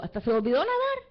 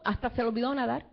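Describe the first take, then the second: First: "nadar" punched louder at the end; emphatic repeat. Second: Said in the usual way. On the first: Shown as a demonstration. Preacher repeats to the congregation that Peter forgot to swim, stressing "nadar". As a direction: hammer home "nadar" for the crowd. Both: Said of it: "Yo digo".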